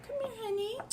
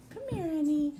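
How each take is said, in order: First: High, soft coaxing to the dog; sweet pet-talk call; coaxing puppy. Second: Said in the usual way. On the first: Real, not acted. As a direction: coax her gently, much higher and softer. Coaxing scared puppy over.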